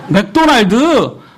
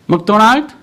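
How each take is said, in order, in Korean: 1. 음절마다 따로 끊어서 고르게 발음합니다. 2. 음절들이 매끄럽게 이어집니다.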